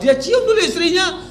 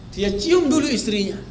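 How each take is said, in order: First: Higher and amused, "cium" lifted high with a laugh; delighted emphasis. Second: Said in the usual way. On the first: Shown as a demonstration. Preacher marvelling to the mothers, delighted. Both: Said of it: "repeated for emphasis".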